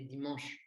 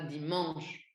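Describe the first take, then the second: First: The word is said quickly with a natural vowel. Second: The nasal vowel is drawn out and exaggerated. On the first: The speaker calls it right. "on dit dimanche" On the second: The speaker calls it wrong. "on ne dit pas dimanche"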